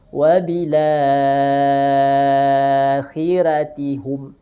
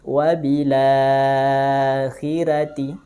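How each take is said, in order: First: The vowel after la is held for six counts. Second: The vowel after la is held for four counts. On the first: "tul enam harokat" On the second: "Dengan empat harokat atau tawasud"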